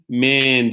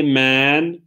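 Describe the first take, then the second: First: "man" said as "men", with an e; plural "men". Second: "Man" with an open, drawn-out vowel; singular "Man". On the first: Teacher showing how the plural is read, "man" as "men". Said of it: "diye okunuyordu". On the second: Teacher recalling irregular plurals, singular "Man" pronounced openly. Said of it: "man diye okunuyordu". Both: Shown as a demonstration.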